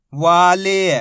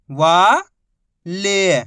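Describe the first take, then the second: First: Whole word in one joined, drawn-out piece; teacher's blended model reading; syllables blended. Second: Each syllable held, long pause between; first syllable rising, then a separate second. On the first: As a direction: join the sounds into one loud, clear word. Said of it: "आपस में मिला के पढ़ना है". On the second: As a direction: sound it out for beginning readers. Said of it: "एक ही अक्षर का उच्चारण करके". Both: Shown as a demonstration.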